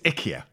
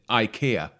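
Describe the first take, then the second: First: The name is said with a Swedish pronunciation. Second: The name is said with a common English pronunciation. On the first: The speaker calls it right. "It's IKEA. ... in Sweden, it's IKEA" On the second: The speaker calls it wrong. "I bet you're the kind of people who pronounce it IKEA"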